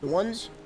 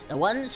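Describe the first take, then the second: First: It is said in a natural, normal voice. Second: It is said in a put-on old man voice.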